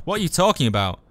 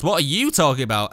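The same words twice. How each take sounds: First: Said in the usual way. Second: "you" picked out with a falling emphasis; stress on YOU. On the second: Acted. Turning the question back on the speaker, "you" stressed.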